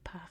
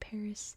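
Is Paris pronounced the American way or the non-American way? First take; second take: non-American; American. First: It is said with a non-American pronunciation. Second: It is said with an American pronunciation. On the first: "here in America we don't say Paris" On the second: "we say Paris"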